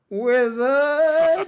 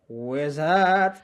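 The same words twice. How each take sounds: First: It is said more loudly. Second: It is said quietly.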